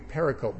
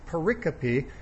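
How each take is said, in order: First: The final e is silent. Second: The final e is pronounced. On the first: The speaker calls it wrong. "It sounds like it should be pericope" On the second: The speaker calls it right. "but it's actually pericope"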